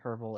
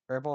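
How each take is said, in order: First: The word begins with a clear H sound. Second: The word begins with a vowel, no H sound. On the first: "if you pronounce the H" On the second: "but I, I don't"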